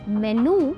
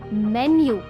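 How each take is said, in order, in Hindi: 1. अंतिम स्वर सादा 'oo' है, बिना ग्लाइड के। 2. अंतिम स्वर में 'oo' से पहले 'y' ग्लाइड है। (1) "it's not मेनू" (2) "it's मेन्यू"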